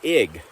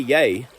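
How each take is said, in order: First: The word starts with a vowel sound. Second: The word starts with a y sound. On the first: This is the Stavanger dialect form. "You'd say ig, E G" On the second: This is the form most Norwegians use. "you wouldn't say yay, which is J E G, which is how you say I"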